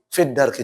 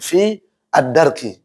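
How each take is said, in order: First: The words are joined and the long vowel disappears. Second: The two words are separate, with a long vowel.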